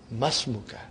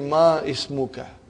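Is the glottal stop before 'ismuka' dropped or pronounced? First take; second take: dropped; pronounced. First: The two words run together without a glottal stop. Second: The glottal stop before 'ismuka' is pronounced separately. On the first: The speaker calls it right. "You should say Masmuka" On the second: The speaker calls it wrong. "It will be incorrect to say Ma Ismuka"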